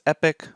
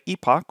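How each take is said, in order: First: It is said with an American pronunciation. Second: It is said with a British pronunciation. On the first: "if you pronounce it the American way" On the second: "or the British way"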